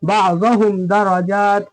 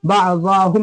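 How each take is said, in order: First: बाअज़हुम as ba'zahum with short za, then दरजात; measured chant, za of बाअज़हुम released quickly. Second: बाअज़हुम said as ba'zaahum, middle vowel held long; wrongly stretched za. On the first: Teacher showing the right reading, बाअज़हुम with short za. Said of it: "ज़ात को भी जल्दी पढ़ेंगे". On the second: Teacher showing what to avoid, बाअज़हुम with long zaa. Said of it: "नहीं पढ़ेंगे". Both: Shown as a demonstration.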